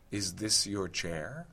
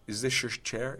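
First: The s and y sounds stay separate. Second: The s and y merge into sh. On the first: "I might say" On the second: "But I might equally say"

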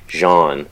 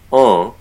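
First: The vowel is nasalized and ends with an n. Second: The vowel is nasalized, with no final n. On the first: "They might include an N at the end, ... a hybrid between French and English" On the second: "pronounced en with a nasalized vowel in French"

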